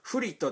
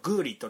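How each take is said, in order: First: The name begins with an F sound. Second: The name begins with a G sound. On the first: This is the commonly used name. "フリットっていう選手がいたんですけど" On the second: This is the accurate pronunciation. "まあ正確に言うとグーリットなんですよ"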